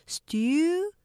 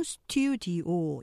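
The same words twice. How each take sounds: First: 스튜디오 broken into three stressed-first syllables; split into syllables. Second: 스튜디오 said as four even Korean syllables; the Konglish 스튜디오, every syllable equal; four-syllable studio. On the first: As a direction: chop 스튜디오 apart, first syllable punched. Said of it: "제가 끊어서 발음해 드려 볼게요". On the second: Teacher showing the wrong four-syllable 스튜디오. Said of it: "사음절로 하지만". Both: Shown as a demonstration.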